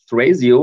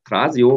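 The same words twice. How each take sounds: First: The name is pronounced the English way. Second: The name is pronounced the German way.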